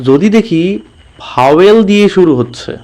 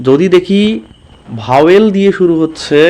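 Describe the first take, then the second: Both takes have the same delivery.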